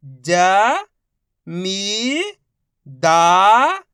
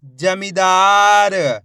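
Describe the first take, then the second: First: Each syllable stretched very slowly; slow sounding-out for a child; drawn-out syllables. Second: जमींदार said whole, louder and slow; blended reading; blended word. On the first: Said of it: "एक एक अक्षर का उच्चारण करके". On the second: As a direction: join it all together. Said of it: "मिला के पढ़ देंगे". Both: Shown as a demonstration.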